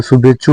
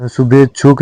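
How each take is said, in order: First: शुभेच्छु ending on chhu; correct open ending. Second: शुभेच्छुक closing on k; wrong final k. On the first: Teacher giving learners the correction, शुभेच्छु without k. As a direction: say शुभेच्छु with no final k. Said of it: "शुभेच्छुक नहीं होता है". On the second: Teacher showing learners the mistake, शुभेच्छुक with final k. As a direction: say शुभेच्छुक with k after chhu. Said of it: "शुभेच्छु होता है". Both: Shown as a demonstration.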